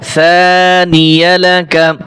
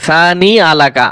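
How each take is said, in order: First: A 'y' sound joins the two parts. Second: No 'y' sound comes before 'alaka'. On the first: The speaker calls it right. "ইয়ালাকা, ইয়া জবর ইয়া" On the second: The speaker calls it wrong. "এখানে অনেকে ভুল করে সানি আলাকা পড়ে"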